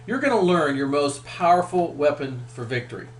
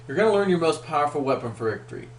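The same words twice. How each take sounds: First: Said in the usual way. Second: Quick, brisk restatement of the line; faster take. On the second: Shown as a demonstration. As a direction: rattle the promise off fast.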